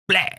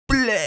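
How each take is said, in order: First: It is said too fast. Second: It is said too slowly.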